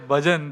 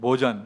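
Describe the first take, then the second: First: It is said with a standard Hindi vowel. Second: It is said with a Bengali-accented vowel.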